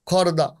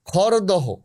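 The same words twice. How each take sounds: First: খড়দা with the h dropped, khorda; spoken form. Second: খড়দহ said as written, ending in doho; spelled form. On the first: Guest saying the name as people really do, no h. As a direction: say খড়দা the everyday way, no h. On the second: Guest reading the written name aloud, with the h. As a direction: read খড়দহ out with the final h. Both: Shown as a demonstration. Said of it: "আমরা বলি".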